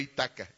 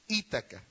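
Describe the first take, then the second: First: The stress is on a later syllable. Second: The stress is on the first syllable. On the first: The speaker calls it wrong. "no Itaca" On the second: The speaker calls it right. "Acento en la I, palabra esdrújula"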